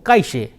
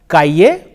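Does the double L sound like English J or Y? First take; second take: J; Y. First: The double L sounds like an English j. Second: The double L sounds like an English y.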